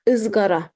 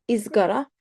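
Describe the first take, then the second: First: Izgara starting with a schwa-like ı; dotless ı. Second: Izgara starting with an ee sound; wrong vowel. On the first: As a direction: open Izgara on a dull uh, not ee. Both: Shown as a demonstration. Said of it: "Izgara is wrong".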